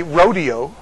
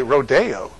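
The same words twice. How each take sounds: First: Rodeo stressed on RO, middle said "dee". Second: Rodeo slow, "day" in the middle, stress on DAY. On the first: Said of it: "we would say". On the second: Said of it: "You say". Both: Shown as a demonstration.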